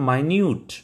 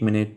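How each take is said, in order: First: The first syllable sounds like 'my'. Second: The first syllable sounds like 'min'. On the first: It means very small. "जब हम इसे बोलते हैं माइन्यूट" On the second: It means a unit of time. "जब हम इसका उच्चारण मिनट करते हैं"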